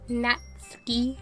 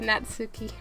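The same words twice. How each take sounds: First: The u after the ts is silent. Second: The u after the ts is clearly voiced. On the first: The speaker calls it right. "the U in Natsuki is kind of silent" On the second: The speaker calls it wrong. "I will probably slip and go into Natsuki"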